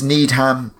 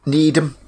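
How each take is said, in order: First: NEEDHAM as need-ham; full HAM ending on Needham; wrong pronunciation. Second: NEEDHAM as need-um; weak um ending on Needham; corrected pronunciation. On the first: Friend asks about the lake, slips into Needham as need-ham. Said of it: "space in between the ham and the need". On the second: Friend corrects herself about the lake, Needham as need-um. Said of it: "No, Needham". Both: Shown as a demonstration.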